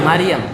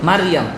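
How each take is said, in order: No difference in how they are said.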